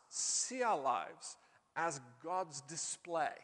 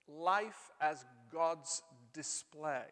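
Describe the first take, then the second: First: Slow, deliberate key phrase; slow emphasis. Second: Life said slow and weighty, falling; stress on life. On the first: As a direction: lay each word down slowly. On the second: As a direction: lean hard on Life, drawn out. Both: Shown as a demonstration.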